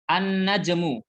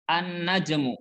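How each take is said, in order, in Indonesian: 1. Huruf L menyatu dengan konsonan setelahnya. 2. Huruf L menyatu dengan konsonan setelahnya.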